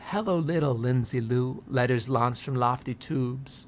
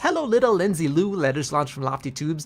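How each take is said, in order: First: It is said at a slower pace. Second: It is said at a quicker pace.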